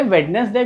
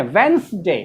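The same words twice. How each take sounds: First: WEDNESDAY with D and middle E sounded; wrong pronunciation. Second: WEDNESDAY as wens-day; correct pronunciation. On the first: Teacher scoffs at the common form, वेडनेसडे as "wed-nes-day". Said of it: "कोई word होता है". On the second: Teacher corrects students, वेंसडे as "wens-day". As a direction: say वेंसडे in two syllables, first D silent. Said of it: "इसको हम लोग क्या पढ़ते हैं?". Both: Shown as a demonstration.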